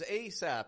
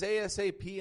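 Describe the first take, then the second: First: It is said as one single word. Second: It is said as four separate letters. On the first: "an acronym" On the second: "an abbreviation"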